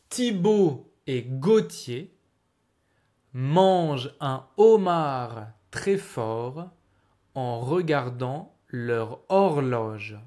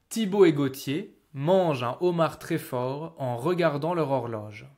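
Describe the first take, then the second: First: The sentence is spoken slowly and carefully. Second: The sentence is spoken at normal speed.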